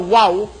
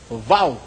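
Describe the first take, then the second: First: It begins with a W sound. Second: It begins with a V sound. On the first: "Imbis na wow" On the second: "itong W nagiging vow"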